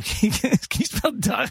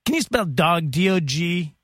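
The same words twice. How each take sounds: First: Punchline retried higher. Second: Said in the usual way. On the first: Shown as a demonstration.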